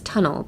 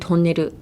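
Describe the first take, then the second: First: It is said with an English accent. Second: It is said with a Japanese accent. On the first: The speaker calls it right. "in English it's tunnel" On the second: The speaker calls it wrong. "in Japan, uh, you say tunnel as in tonneru"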